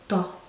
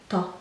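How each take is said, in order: Both takes have the same delivery.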